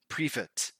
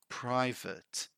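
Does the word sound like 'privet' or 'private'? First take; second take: privet; private. First: The word is said like 'privet'. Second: The word is said like 'private'. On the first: The speaker calls it wrong. "Sometimes people say privet, privet. But that's wrong" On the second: The speaker calls it right. "The right way is private"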